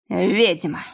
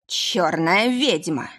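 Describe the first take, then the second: First: Put-on thick drunken yell; drunken bellow. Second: Slow dragged-out howl; drawn-out drunken accusation; drunken bellow. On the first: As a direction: roar it out, possessed. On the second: Acted. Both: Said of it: "возопил Вель не своим голосом".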